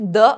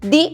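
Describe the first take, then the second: First: The word ends in a short 'uh' vowel. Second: The word ends in a long 'ee' vowel. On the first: The next word starts with a consonant. "Consonants కి ముందర th ని use చేస్తే ద అని pronounce చేయాలి" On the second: The next word starts with a vowel. "Vowels కి ముందర th ని pronounce చేస్తే ది అని ప్రొనౌన్స్ చేయాలి"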